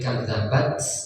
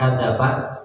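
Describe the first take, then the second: First: The final t ends with a breathy hiss. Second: The final t ends cleanly without a hiss. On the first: The speaker calls it right. "Ada desisnya" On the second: The speaker calls it wrong. "Bukan kadabat gitu ya"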